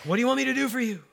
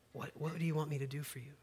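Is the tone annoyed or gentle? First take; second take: annoyed; gentle. First: It sounds annoyed, as if interrupted. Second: It sounds gentle and kind.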